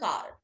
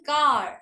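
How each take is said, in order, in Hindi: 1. आख़िरी r की आवाज़ छोटी और हल्की होती है। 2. आख़िरी r की आवाज़ लंबी खींची जाती है। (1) "अमेरिका में कार ... उसको स्ट्रेच नहीं करते हम" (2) "इंडिया में बोलते हैं कार"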